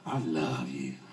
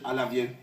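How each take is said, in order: First: It is said in a warm, heartfelt tone. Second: It is said in a flat, unconvincing tone. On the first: The feeling is sincere. The speaker calls it right. "so you all start getting happy" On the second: The feeling is not believable. The speaker calls it wrong. "hopefully you wouldn't believe them"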